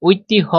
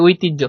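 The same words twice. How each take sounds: First: ঐতিহ্য said as "oitihyo" with a sounded h; ঐতিহ্য sounded literally with h; wrong pronunciation. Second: ঐতিহ্য said as "oitijjo" with doubled j sound; ঐতিহ্য pronounced oitijjo; correct pronunciation. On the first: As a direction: say ঐতিহ্য with the h spoken, the way not to. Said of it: "আমরা কিন্তু বলি না". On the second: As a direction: say ঐতিহ্য with the j, not h. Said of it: "আমরা বলি ঐতিহ্য". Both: Shown as a demonstration.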